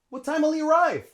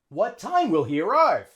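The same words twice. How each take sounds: First: The words run together and the H drops. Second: Each word is said separately and fully. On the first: The speaker calls it right. "So here we have lots of linking" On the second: The speaker calls it wrong. "Native English speaker probably wouldn't say that"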